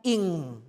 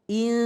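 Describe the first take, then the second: First: The word ends in a back ng sound. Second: The word ends in a plain n sound. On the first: The speaker calls it right. "Yang benar adalah ing" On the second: The speaker calls it wrong. "Tadi mbaknya masih membaca in"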